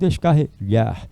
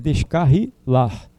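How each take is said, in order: First: It has a palatal lh sound before the end. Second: It has a plain l sound before the end. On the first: The speaker calls it wrong. "e não descarrilhar. Não existe H" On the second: The speaker calls it right. "é descarrilar"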